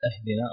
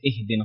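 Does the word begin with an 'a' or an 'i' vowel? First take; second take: a; i. First: The word begins with an 'a' vowel. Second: The word begins with an 'i' vowel. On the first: The speaker calls it wrong. "الخطأ أهدنا" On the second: The speaker calls it right. "وصحيح إهدنا ... الهمزة مكسورة"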